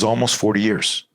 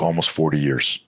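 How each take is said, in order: First: Imitated disbelief, pitched higher; incredulous echo. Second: Said in the usual way. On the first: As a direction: repeat it back as an astonished question. Driver echoes the answer in disbelief.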